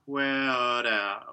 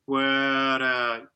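First: A full extra syllable is added before the R. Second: A slight opening glides subtly into the R. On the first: The speaker calls it wrong. "like making a new syllable or something" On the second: The speaker calls it right. "just give a bit of opening into the R"

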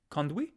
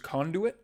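First: The word has a Canadian regional pronunciation. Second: The word has its usual, non-regional pronunciation.

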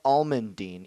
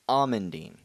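First: The word is said with an L sound. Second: The word is said without an L sound. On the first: The speaker calls it wrong. "It's not almondine" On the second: The speaker calls it right. "There's no L in almondine"

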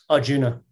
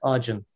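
First: The name ends with a final vowel sound. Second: The name ends on n, with no final vowel. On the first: This is the usual English way of saying it. The speaker calls it wrong. "My Indian brothers and sisters will hate me for pronouncing it like that" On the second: This is how it is said in India. The speaker calls it right. "you drop the A when you say it in Indian"

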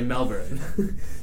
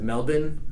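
First: The R sound in the first syllable is pronounced. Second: The R sound in the first syllable is dropped. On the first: It keeps the speaker's own accent. "the R is there, so I'm going to stick with my American accent and say Melbourne" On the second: It copies how people who went there say it. "every American that I talk to that goes to Melbourne pronounces it Melbourne"

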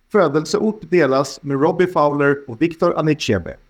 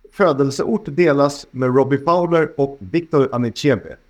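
Both takes have the same delivery.

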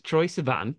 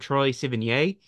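First: The surname ends in a plain 'an' sound. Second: The surname ends with an extra vowel sound. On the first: The speaker calls it right. "It's Troye Sivan" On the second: The speaker calls it wrong. "I pronounced it wrong. I kept calling him [name]"

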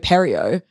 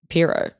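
First: The name is pronounced like 'Perio'. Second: The name is pronounced like 'Piro'. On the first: The speaker calls it wrong. "I've been pronouncing this wrong my whole fucking life" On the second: The speaker calls it right. "I think it might actually just be Piro"

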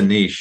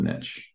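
First: The word is pronounced in a refined, posh way. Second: The word is pronounced in an everyday, plain way. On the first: This is the cultured way to say it. "maybe it's a niche and I should put my pinky up" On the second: This is how the speaker normally says it. "I call it a niche"

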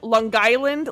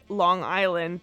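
First: It is pronounced in the local regional way. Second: It is pronounced in a plain, non-local way. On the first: This is how people from there say it. "They call it like" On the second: This is how outsiders say it. "people from Long Island don't call it"

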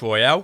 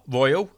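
First: It is said like the French word royale. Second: It is said like the English word royal. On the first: The speaker calls it wrong. "I keep saying Royale. It's not Royale" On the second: The speaker calls it right. "It's Royal"

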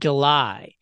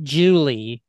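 First: It sounds like the month July. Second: It sounds like the name Julie. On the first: It is the month. "when it's a month, pronounce it July" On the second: It is a person's name. "when it's a name, pronounce it Julie"

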